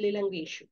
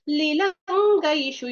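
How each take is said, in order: First: The consonant is said once without emphasis. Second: The doubled consonant is held with slight emphasis. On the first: The speaker calls it wrong. "not say" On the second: The speaker calls it right. "You will pronounce it with a slight emphasis"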